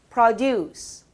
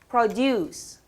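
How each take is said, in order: Both takes have the same delivery.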